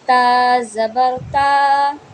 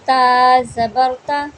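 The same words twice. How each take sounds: First: The final vowel is drawn out long. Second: The final vowel is short and not drawn out. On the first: The speaker calls it wrong. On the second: The speaker calls it right.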